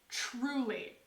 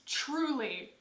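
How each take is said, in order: Both takes have the same delivery.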